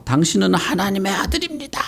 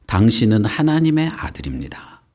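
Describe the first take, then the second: First: High-pitched mock scream, held back in volume; high, restrained imitation shriek; crying-out demon. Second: Said in the usual way. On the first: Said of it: "막 소리를 지르면서 나갔어". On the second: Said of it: "뭐라고 소리를 질렀냐".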